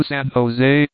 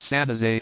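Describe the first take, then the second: First: Said in the usual way. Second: "San Jose" said San Ho-ZAY, stress on the last syllable; local pronunciation. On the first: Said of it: "generally pronounced San Jose". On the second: Shown as a demonstration. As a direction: say "San Jose" the Spanish way, hitting the final "se". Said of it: "emphasis on last syllable".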